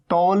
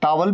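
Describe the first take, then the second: First: टॉवल said with a rounded 'taw-wal' first vowel; second variant of towel. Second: टॉवल said with an open 'ta-wal' first vowel; first variant of towel. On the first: Teacher giving students the other way, "taw-wul". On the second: Teacher giving students one accepted way, "taa-wul". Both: Shown as a demonstration. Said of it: "दोनों तरीके से बोला जाता है".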